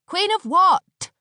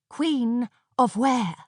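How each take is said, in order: First: High, loud sharp retort; snapping. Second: Slower, calmer repeat of the snap; snapping. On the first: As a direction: snap back impatiently. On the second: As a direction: press the question flatly. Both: A narrator's reading. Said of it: "snapped Aneshka".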